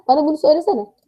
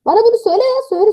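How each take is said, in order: First: Said in the usual way. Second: Insistent demand. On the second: Real, not acted. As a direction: demand it from the chat, exasperated. Repeats the demand, exasperated. (daha yüksek ve ısrarcı)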